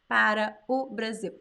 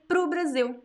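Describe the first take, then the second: First: Para o is said in full, unreduced. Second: Para o is contracted to one syllable.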